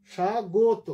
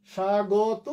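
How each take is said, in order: First: স্বাগত with rounded o after g, rising; closed-vowel variant. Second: স্বাগত with open aw after g; open-vowel variant. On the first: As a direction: model স্বাগত as sha-go-to. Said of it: "দুটোই". (স্বাগত, গ-এ ওকার দিয়ে) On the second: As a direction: model স্বাগত as sha-gaw-to. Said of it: "দুটোই শুদ্ধ". (স্বাগত, গ-এ খোলা অ) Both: Shown as a demonstration.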